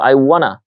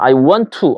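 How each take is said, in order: First: The words 'want to' blend into one reduced 'wanna'. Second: The words 'want to' are said fully and separately. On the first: "I wanna 이렇게 변하듯이" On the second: "I want to 안 하고"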